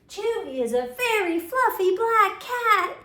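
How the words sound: It is said with excitement.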